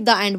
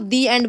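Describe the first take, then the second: First: 'The' is said with a short 'uh' vowel. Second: 'The' is said with a long 'ee' vowel. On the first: The speaker calls it wrong. "ना कि द end बोलते हो" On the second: The speaker calls it right. "दी एंड बोलते हो"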